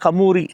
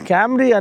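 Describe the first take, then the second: First: It is said as three syllables, 'ka-moo-ri'. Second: It is said as two syllables, 'kam-ree'. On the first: "దాని actual pronunciation కమూరి" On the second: "Toyota క్యామ్రీ"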